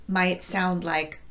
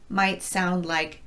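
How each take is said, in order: No difference in how they are said.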